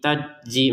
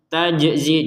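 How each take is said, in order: First: The j sound has no bouncing release. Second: The j sound has a bouncing release. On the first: The speaker calls it wrong. "mana pantulannya nggak ada" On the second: The speaker calls it right. "jimnya dipantulkan ya"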